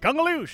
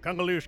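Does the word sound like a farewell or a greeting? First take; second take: greeting; farewell. First: It is said with a welcoming greeting inflection. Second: It is said with a parting farewell inflection. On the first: It means hello. "It can mean different things depending on an inflection. Hello!" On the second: It means goodbye.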